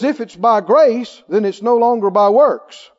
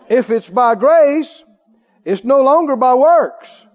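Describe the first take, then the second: First: It is read at a normal pace. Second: It is read slowly and deliberately.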